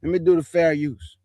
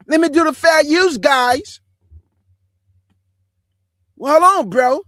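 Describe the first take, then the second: First: Said in the usual way. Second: High, loud put-on dude voice. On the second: Man redoing his fair-use notice for viewers, high loud mock dude voice.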